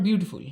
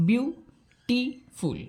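First: Said in the usual way. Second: বিউটিফুল very slowly in three parts, biu - ti - ful; teacher sounding out বিউটিফুল syllable by syllable, drawn out; split into syllables. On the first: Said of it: "ভাঙা যাচ্ছে সিলেবেলে". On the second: Shown as a demonstration. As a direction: break বিউটিফুল into separate syllables with clear pauses. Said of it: "দেখো ভাঙা যাচ্ছে সিলেবেলে".

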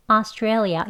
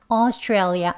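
First: Australia beginning with an open 아; Australia with the first vowel as 아; 아 version of Australia; 아-start variant. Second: Australia beginning with 어; Australia with an 어-like first vowel; 어 version of Australia; 어-start variant. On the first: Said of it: "아 소리로 시작하는". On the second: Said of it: "어 소리가 더 나는 발음". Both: Shown as a demonstration.

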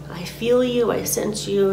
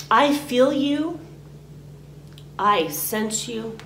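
First: Said in the usual way. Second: Slow and higher on "I feel you", then "I sense you" settling; slow, deliberate affirmation. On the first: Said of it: "you can say it out loud". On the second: Shown as a demonstration. Teacher shows the words to say to what you release, slow and deliberate. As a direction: say each phrase slowly, letting it land. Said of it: "You can say".

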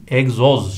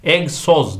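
First: EGZOZ with voiced z twice; correct pronunciation. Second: EGZOZ as "egsoz", with s; wrong pronunciation. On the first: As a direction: say egzoz as eg-zoz. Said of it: "şeklinde yazılıyor". (egzoz doğru, z ile) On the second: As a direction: say egzoz with a hissed s in the middle. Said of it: "değil". (egzoz yanlış, "egsoz") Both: Shown as a demonstration.

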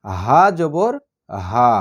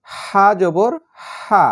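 First: "হা" from deep in the throat, heavy, lower and very slow; deep throaty "হা জবর হা" with less air; heavy "হা" from where the throat begins. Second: "হা" pushed out with lots of air from mid-throat, very slow; airy, breathy "হা জবর হা". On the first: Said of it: "আর এইটা হচ্ছে". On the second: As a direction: let the air rush out on "হা". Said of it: "বড় হার উচ্চারণ হচ্ছে বাতাসের সঙ্গে". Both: Shown as a demonstration.

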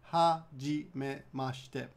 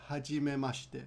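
First: Slow. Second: Said in the usual way. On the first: Shown as a demonstration. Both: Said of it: "say your name very simply".

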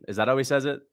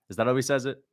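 No difference in how they are said.

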